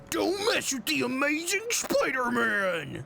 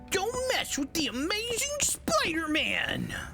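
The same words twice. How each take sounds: First: It is lower, like a Spider-Man voice. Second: It is high-pitched, like regular Peter.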